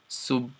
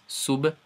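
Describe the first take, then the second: First: The final b is soft and barely heard. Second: The final b is released with a bounce. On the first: "then no bounce" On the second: "I'll first I'll do bounce"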